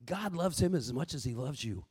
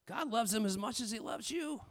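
First: "him" leaned on, said soft and low; stress on him. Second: "you" leaned on at the end, very soft; stress on you. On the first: Preacher telling wives God loves their husband, stress on "him". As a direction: press the word "him" softly. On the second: Preacher reassuring wives God loves them too, stress on "you". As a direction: press the word "you" gently. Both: Shown as a demonstration.

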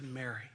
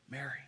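First: Soft, quiet naming of Mary; just say her name, softly; simple and gentle. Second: Very soft, tender calling of her name; gentle and intimate. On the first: Jesus gently calling Mary, soft and simple. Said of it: "simply said". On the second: Jesus calling Mary by name, soft and tender. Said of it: "with hands outstretched". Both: Retold or imitated.

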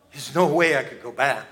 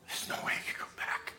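First: Said in the usual way. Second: Whisper. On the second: Acted. Whispered despair, then repeated aloud.

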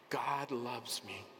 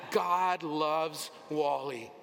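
First: Said in the usual way. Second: Slow, loud, emphatic declaration; loud proclamation. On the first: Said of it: "Say it with me". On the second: Shown as a demonstration. Preacher leading the congregation's loud declaration. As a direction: shout your own name into it. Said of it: "Say your name".

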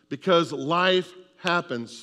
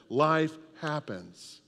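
First: Said in the usual way. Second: Life happens, drawn out slowly; slow emphatic repeat. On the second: Shown as a demonstration. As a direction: lean on it slowly so they repeat it. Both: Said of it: "Say that".

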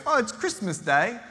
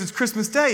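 First: Put-on high-pitched, botched Australian-British boy; half-Australian, half-British accent. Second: Higher, mildly excited retelling; lightly acted joyful realisation; delighted exclamation. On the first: Boy answering Scrooge from the street, mock Australian-British accent. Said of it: "half Australian, half British accent". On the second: Scrooge learning he has a second chance, mildly excited.

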